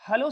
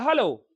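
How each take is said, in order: First: Hello is said softly and quietly. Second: Hello is said loudly and strongly.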